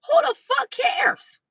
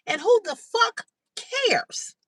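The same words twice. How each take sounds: First: Much higher and louder, slow and drawn out; angrier repeat. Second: Higher, slow, drawn-out disbelief; exasperated outburst. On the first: Repeating herself to the commenter, rising to a slow shout. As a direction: let it build into a near shout. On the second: Venting at a commenter, slow outraged disbelief. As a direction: stretch every word out in outrage. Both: Real, not acted.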